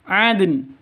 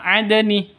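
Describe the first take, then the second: First: The word ends on a bare n sound. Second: The final n is followed by a vowel. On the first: The speaker calls it right. "tapi adn. nunnya berubah menjadi sukun" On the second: The speaker calls it wrong. "Bukan adni"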